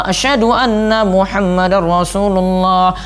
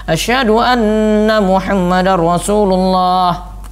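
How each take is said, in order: The two takes are said the same way.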